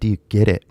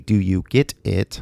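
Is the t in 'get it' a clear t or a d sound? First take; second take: d sound; clear t. First: The t in 'get it' sounds like a d. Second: The t in 'get it' is a clear t. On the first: "the T becomes a D" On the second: "he didn't say"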